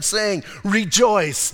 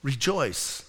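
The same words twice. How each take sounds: First: 'Rejoice' read slow and drawn out; slow read rejoice. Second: 'Rejoice' lower and much softer; a soft, low 'Rejoice' from Jesus; tender rejoice. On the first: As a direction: stretch 'Rejoice' as you read it. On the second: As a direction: say 'Rejoice' gently, like a whisper of comfort. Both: Shown as a demonstration. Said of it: "I love the way he tells them".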